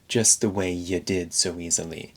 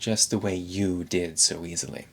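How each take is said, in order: First: The word 'you' is reduced to 'ya'. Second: The word 'you' has a full vowel. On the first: "instead of reducing the vowel to ya" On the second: "he's saying the full vowel"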